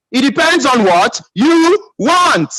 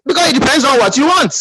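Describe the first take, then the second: First: Drawn out word by word, pitch raised; slow emphasis. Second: Said in the usual way. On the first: Real, not acted. Speaker drives the point home to the audience, slow and emphatic. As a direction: spell it out slowly and deliberately.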